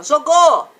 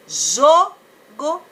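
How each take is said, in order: First: Jogou with a loud, long final GÔ; deliberately wrong end-stressed jogou; stress on last syllable. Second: JO of jogo stretched, go let fall after a gap; slow jogo with a long, strong JO; stress on first syllable. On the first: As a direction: throw all the weight on the end of jogou. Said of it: "ou você fala jogou?". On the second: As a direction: lean hard on the JO in jogo. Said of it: "é aquela sílaba que eu falo mais alto". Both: Shown as a demonstration.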